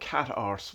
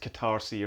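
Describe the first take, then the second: First: It is said as two syllables, like 'cat arse'. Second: It is said as three syllables, ending in 'ee'. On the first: The speaker calls it wrong. "I'm sure it's not pronounced that way at all" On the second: The speaker calls it right. "It's Catarsi or something like that"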